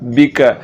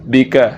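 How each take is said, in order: The two takes are said the same way.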